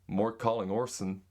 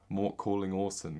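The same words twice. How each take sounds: First: It is said in an American accent. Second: It is said in a British accent. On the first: "Here's American" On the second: "That's British"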